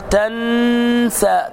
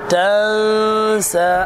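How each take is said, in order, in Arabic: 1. تُنطق النون كاملة وواضحة. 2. تُخفى النون مع غنّة. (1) "لا تقل تنسى، تن" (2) "الإخفاء بين الإظهار والإدغام، فأقول تنسى"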